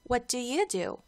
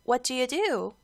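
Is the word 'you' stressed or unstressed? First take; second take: stressed; unstressed. First: The word 'you' is given extra stress. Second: The word 'you' carries no special stress. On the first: The question is asked back to the other person. "you에다가 조금 더 강조를 해서 악센트를 주시면 조금 자연스러워요" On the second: The question is asked for the first time. "처음에 존이 물어봤을 때는"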